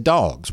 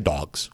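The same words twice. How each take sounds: First: The vowel is drawn out with a Southern drawl. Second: The vowel is short and plain, without a drawl. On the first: This is how locals say it. The speaker calls it right. "We say Dawgs. We have a little Southern drawl to us" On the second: This is not how locals say it. The speaker calls it wrong. "we don't say Dawgs"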